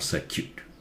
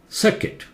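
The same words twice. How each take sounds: First: The u vowel is sounded in the word. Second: The u vowel is silent, like biscuit. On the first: The speaker calls it wrong. "It's not circuit or circuit" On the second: The speaker calls it right. "U is silent. Circuit, just like biscuit"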